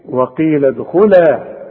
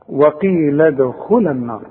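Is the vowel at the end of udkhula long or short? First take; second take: long; short. First: The final vowel is long and held. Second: The final vowel is short and linked onward. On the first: The reader stops on this word. "اذا وقفت تقول ايه" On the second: The reader continues into the next word. "اللام فتحة بس اذا وصلت"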